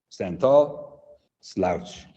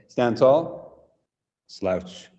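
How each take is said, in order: Both takes have the same delivery.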